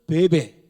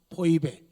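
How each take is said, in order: First: The name is pronounced as be-be. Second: The name is pronounced as poi-be. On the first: This is how Koreans say the name. "우리 한국 사람들은 베베" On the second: This is the New Testament form of the name. "신약성경 발음은 포이베"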